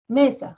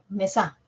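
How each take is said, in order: First: The stress is on the first syllable. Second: The stress is on the last syllable. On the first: The speaker calls it right. "En me" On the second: The speaker calls it wrong. "Puedo desplazar el acento"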